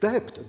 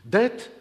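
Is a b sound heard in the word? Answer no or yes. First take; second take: yes; no. First: The word is said with a b sound. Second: The word is said without a b sound. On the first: The speaker calls it right. "alors qu'il devrait prononcer debt, D E B T" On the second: The speaker calls it wrong. "et pas D E T"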